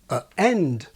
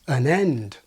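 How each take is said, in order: First: A glottal stop separates the article from 'end'. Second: An N sound links the article to 'end'. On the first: "with the separating glottal stop" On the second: "the same pattern with the articles that I have"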